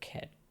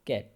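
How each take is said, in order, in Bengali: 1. প্রথম k ধ্বনিতে জোরালো বাতাসের ফুঁ আছে। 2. প্রথম k ধ্বনিতে কোনো বাতাসের ফুঁ নেই। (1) "এটা হবে খ্যাট, খ উচ্চারণ হবে" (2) "আমরা বলি কি ক্যাট, এটা ক্যাট হবে না"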